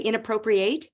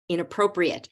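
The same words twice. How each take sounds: First: The final syllable sounds like 'eight'. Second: The final syllable is reduced, like 'it'. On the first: The speaker calls it wrong. "it looks like it should be eight, right? But did I say" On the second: The speaker calls it right.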